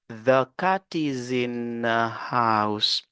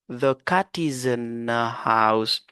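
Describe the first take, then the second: The two takes are said the same way.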